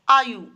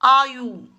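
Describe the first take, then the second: First: आयु with short final "u"; correct form. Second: आयु with long final "oo", "aayoo"; wrong form. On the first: Teacher gives children the right word, carefully pronounced. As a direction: say आयु as "AA-yu", ending kept short. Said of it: "सही शब्द होता है". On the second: Teacher reads out the error to children, mispronounced. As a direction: say आयु as "aa-YOO", ending drawn out. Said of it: "आयु नहीं होता". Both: Shown as a demonstration.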